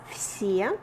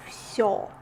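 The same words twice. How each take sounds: First: Все said with a plain е sound; teaching vowel е. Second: Всё said with the ё sound, like yo in yoga; teaching vowel ё. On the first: Teacher modelling все for learners, careful and clear. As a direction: model все as "fsye", not "fso". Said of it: "This one is е". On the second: Teacher contrasting всё with все for learners. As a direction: model всё as "fsyo", ending in yo. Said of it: "the second one is ё". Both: Shown as a demonstration.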